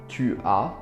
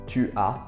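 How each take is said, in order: The two takes are said the same way.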